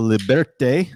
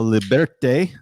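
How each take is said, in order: First: The word is pronounced the Spanish way. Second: The same.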